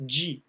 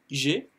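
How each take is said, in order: First: "G" said the English way, "dgee"; English letter G. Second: "G" said the French way, like "jé"; French letter G. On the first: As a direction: give "G" its English name, "jee". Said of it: "mais en anglais G". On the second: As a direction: give "G" its French name, "zhay". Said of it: "Donc qui se dit G". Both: Shown as a demonstration.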